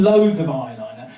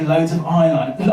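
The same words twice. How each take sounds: First: "loads" stressed for comic exaggeration. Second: Said in the usual way. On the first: Real, not acted. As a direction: lean hard on "loads" to show it was excessive. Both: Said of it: "I mean, loads of eyeliner".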